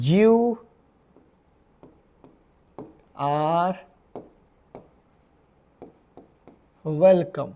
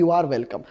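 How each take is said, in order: First: Slow, spaced word by word; teacher pacing it out for students, word by word. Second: Said in the usual way. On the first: Shown as a demonstration. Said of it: "मग कसं म्हणणार?". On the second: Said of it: "तुमचे स्वागत आहे".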